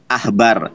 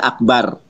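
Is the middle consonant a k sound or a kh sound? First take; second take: kh; k. First: The middle consonant is a soft kh sound. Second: The middle consonant is a hard k sound. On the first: It is written without the dot. "Itu tulisannya Ahbar" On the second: It is written with the dot. "nih dages seperti ini baru dibaca Akbar"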